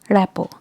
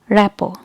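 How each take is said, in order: The two takes are said the same way.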